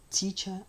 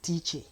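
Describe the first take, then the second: First: The final syllable has a plain 'er' sound. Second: The final syllable has an 'air' sound. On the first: The speaker calls it right. "they have the er sound" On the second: The speaker calls it wrong. "very unfair for anybody to pronounce the word teacher as teacher because there is no air sound in there"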